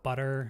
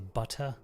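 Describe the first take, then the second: First: American accent, the T sounds like a D. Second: British accent, with a clear T sound. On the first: "If it's a double T, we use a D sound" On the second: "But in uh, British, they would say butter"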